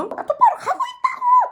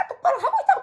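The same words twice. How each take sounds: First: Retold yelling back. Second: Quick mock replay of yelling back; retold bickering retort. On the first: Daughter yells back at dad while driving, mock scream. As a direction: imitate yourself screeching back in protest. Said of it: "또 이게 된 거예요". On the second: Daughter retorts to dad in replayed quarrel, mock yell. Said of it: "이게 된 거예요".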